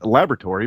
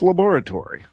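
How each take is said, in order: First: It is said with an American pronunciation. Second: It is said with a British pronunciation.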